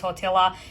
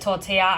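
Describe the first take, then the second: First: The L sound in the word is pronounced. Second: The L sound in the word is silent. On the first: The speaker calls it wrong. "saying tortilla" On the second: The speaker calls it right. "I didn't realize that the L's were silent"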